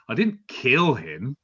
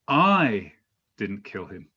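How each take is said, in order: First: The stress is on "kill". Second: The stress is on "I".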